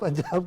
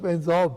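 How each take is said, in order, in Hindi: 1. इन स्वरों की ध्वनि खुली और बिना गोलाई वाली 'a' जैसी है। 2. इन स्वरों को 'o' की ओर गोल करके बोला जाता है।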